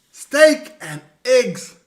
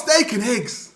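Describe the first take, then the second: First: Slow, savoured winner's reveal; drawn-out proud declaration; grand announcement. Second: Said in the usual way. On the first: Pretend. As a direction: announce the winning breakfast with relish.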